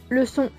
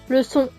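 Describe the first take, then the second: The two takes are said the same way.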